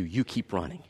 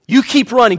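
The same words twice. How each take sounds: First: Much softer, lower, gentle "You keep running"; quietly encourage, close to the ear; tender reassurance. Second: Louder, higher push on "You keep running"; urgent encouragement. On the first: God comforting a hurting runner, soft and tender. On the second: God urging the runner on, loud rally. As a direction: spur them forward like a coach. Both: Acted.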